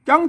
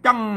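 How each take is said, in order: First: The syllable is said with a high tone. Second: The syllable is said with a falling tone. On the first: "เสียงตีอ่ะ" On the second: "เสียงโทพิเศษ"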